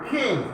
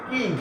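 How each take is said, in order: First: The first k has a strong breathy puff. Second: The first k has no breathy puff. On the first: The speaker calls it right. "খে I N G কি হয় খিং" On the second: The speaker calls it wrong. "আমরা বলি কিং"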